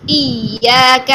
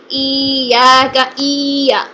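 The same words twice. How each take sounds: First: ایاک slow, hamza hitting the yaa quickly but gently; soft doubled yaa. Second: ایاک stretched into a madd; wrong long vowel. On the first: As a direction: tap the hamza straight into the yaa, softly. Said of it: "ہمزہ کو فوراً یا کے ساتھ ہٹ کریں لیکن نرمی کے ساتھ". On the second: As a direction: draw out ایا, the wrong way. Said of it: "مد پیدا ہو جاتی ہے جو کہ غلط ہے". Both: Shown as a demonstration.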